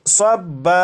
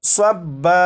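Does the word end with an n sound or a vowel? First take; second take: vowel; vowel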